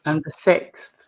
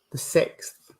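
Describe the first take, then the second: First: Said in the usual way. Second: A whispered note to herself, "The sixth"; hushed repeat of "The sixth"; whispered echo. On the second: Real, not acted. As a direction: repeat the sixth under her breath, softer. Medium echoing the date to herself.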